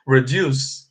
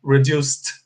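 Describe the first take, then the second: First: "reduce" ending on a plain s sound; "reduce" said without the final t; wrong, no ED. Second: "reduced" ending in a clear t sound; "reduced" said redust, with a final t. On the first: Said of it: "if you say like this". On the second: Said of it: "com som de T". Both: Shown as a demonstration.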